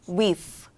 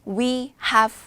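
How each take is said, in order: First: It is said as one contracted syllable. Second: It is said as two full words. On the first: "줄여서 어떤 느낌이에요?" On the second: "we have ridden it"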